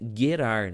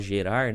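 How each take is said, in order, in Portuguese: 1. A primeira consoante tem som de g forte. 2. A primeira consoante tem som suave de zh. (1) "a pronúncia certa é Gerar, né? Porque o G no hebraico eles têm som de G" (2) "todo mundo fala gerar"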